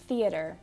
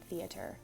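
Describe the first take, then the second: First: The middle consonant sounds like a D. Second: The middle consonant is a clear T sound. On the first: The speaker calls it right. "That's very, very exclusively a D for theater" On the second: The speaker calls it wrong. "We would not say"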